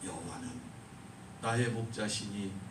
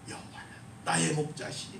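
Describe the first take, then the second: First: It is read slowly, each word spoken distinctly. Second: It is read smoothly and fluently, flowing quickly. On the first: It moves the listeners to worship. "천천히 또박또박" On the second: It impresses the listeners. "옥구슬 굴러가듯이 목소리 좋은 사람들"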